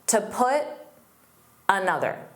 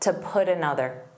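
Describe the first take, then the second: First: A pause follows put, and its T is unreleased. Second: No pause; the T links as a soft D. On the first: "he put a pause between put and another" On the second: "when you don't add a pause between the words"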